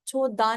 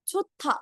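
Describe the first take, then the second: First: The middle consonant is a plain d. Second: The middle consonant is an aspirated t. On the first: The speaker calls it wrong. "छोदा नहीं होता है कुछ भी" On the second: The speaker calls it right. "एस्पिरेटेड consonant में चेंज हो जाते हैं"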